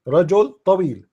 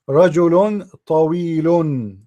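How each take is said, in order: First: Each word ends without any added -un sound. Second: Each word ends with an added -un sound. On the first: "Just say rajul tawil, that's it. Plain and easy" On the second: "I don't say dhammatain"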